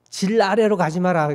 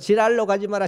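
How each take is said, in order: First: The word for below has two full syllables. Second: The word for below is squeezed into one syllable.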